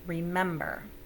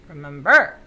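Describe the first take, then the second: First: The stress falls on the second syllable. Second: The stress falls on a syllable other than the second. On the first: The speaker calls it right. "It's the second one" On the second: The speaker calls it wrong. "I don't know how those words would sound"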